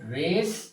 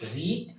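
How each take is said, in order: First: The vowel is short, like 'red'. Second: The vowel is long, like 'reed'. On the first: It is the past form. "শুধু উচ্চারণটা পাল্টে যাবে" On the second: It is the present form. "শুধু উচ্চারণটা পাল্টে যাবে"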